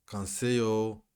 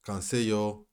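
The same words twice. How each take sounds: The two takes are said the same way.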